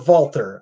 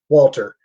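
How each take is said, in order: First: The name is pronounced the Austrian way. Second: The name is pronounced the plain English way.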